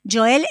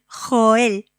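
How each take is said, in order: First: It is said with an English pronunciation. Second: It is said with a Spanish pronunciation. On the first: "Joel es en inglés" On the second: "en castellano es Joel, con L al final"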